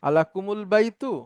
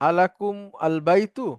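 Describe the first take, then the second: First: An added u links the m onward. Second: The m ends bare, words kept apart.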